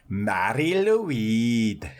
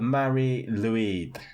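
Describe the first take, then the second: First: The name is said with a more Welsh-sounding pronunciation. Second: The name is said without a Welsh-sounding pronunciation. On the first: The speaker calls it right. "Is that better? Much better, yeah" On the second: The speaker calls it wrong. "Didn't sound very Welsh"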